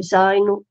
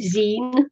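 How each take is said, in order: First: "zine" rhyming with sign; long-i pronunciation. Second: "zine" rhyming with seen; long-ee pronunciation. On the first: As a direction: say "zine" with an eye vowel. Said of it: "it would be zine and not zine". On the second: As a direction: say "zine" like the end of magazine. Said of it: "'cause, uh, it's magazine". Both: Shown as a demonstration.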